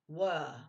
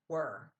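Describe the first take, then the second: First: It is said with a British accent. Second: It is said with a North American accent. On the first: "in British English, you'll hear were" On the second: "Not were"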